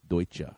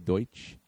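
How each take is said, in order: First: The word ends with a pronounced final vowel. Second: The word ends without a final vowel sound. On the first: This is the original pronunciation. The speaker calls it right. "Because the last E is emphasized" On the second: This is the shortened everyday pronunciation. The speaker calls it wrong. "You know how we say Deutsch?"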